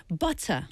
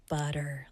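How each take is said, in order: First: "Butter" with a crisp T and no final R; British T. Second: Low, soft American "butter" with a D-like T; American accent. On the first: Teacher drills British T for student, crisp "Butter". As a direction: sound the T sharply in "Butter". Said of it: "So 영국 R P". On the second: Teacher mimics Americans for contrast, American "butter". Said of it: "근데 미국인들". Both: Shown as a demonstration.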